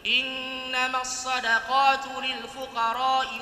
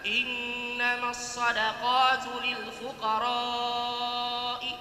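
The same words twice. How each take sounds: First: The vowel in fuqara is kept short. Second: The vowel in fuqara is held long. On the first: The speaker calls it wrong. "Tadi muridnya dia tidak panjangkan" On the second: The speaker calls it right.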